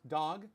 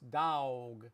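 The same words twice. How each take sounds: First: Said in a Los Angeles accent. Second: Said in a Texas accent. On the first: "I'm from Los Angeles" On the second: "In Texas"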